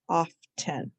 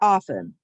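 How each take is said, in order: First: The word is said with a t sound. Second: The word is said without a t sound. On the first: This pronunciation helps with the spelling. "but we can think often" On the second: This is the everyday pronunciation. "We say often"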